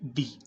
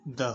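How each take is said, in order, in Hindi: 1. यह शब्द लंबी ee आवाज़ से खत्म होता है। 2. यह शब्द छोटी uh आवाज़ से खत्म होता है। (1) "अगर द से बाद का जो वर्ड है उसकी शुरुआत इंग्लिश के किसी वोवल से हो रही है ... तो फिर हम इसका उच्चारण जो है वो करते हैं डी" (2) "अगर इसकी शुरुआत कॉन्सोनेंट से हो तो फिर इसका जो उच्चारण होगा वो क्या होगा? द होगा"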